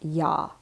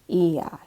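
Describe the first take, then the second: First: It is one gliding syllable, like ya. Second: It is two syllables, stress on the i. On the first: The speaker calls it wrong. "I A with no accent on that I tends to just sound more like ya" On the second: The speaker calls it right. "so that we're hearing the E"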